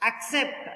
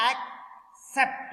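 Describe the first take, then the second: First: Said in the usual way. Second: "Accept" split as ac, pause, cept; syllable by syllable. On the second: Shown as a demonstration. Teacher counting syllables for students, "Accept" broken in two. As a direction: say "Accept" in two separate beats. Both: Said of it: "Two syllable".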